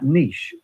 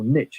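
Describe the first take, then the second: First: It is said with a British pronunciation. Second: It is said with an American pronunciation.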